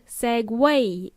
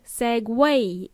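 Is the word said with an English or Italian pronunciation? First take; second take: English; English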